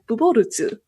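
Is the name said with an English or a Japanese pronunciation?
Japanese. The name is said with Japanese-style syllables. "for them, they said"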